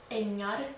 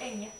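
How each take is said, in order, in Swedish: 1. Ordet slutar på -ar. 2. Ordet slutar på -e.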